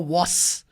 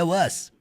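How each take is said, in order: First: The word ends with an s sound. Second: The word ends with a z sound. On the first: The speaker calls it wrong. "tem gente que fala was. Não é was" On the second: The speaker calls it right. "é was. O som do a e o som do z"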